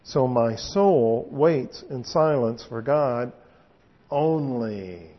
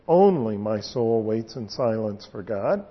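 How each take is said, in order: First: The word only weighted last; stress on only. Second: Only first, lifted with a rise; stress on Only. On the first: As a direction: only set apart at the end, drawn out and falling. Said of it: "with an emphasis on the only". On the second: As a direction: open by hitting Only. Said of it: "the place where the emphasis is to be". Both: Shown as a demonstration.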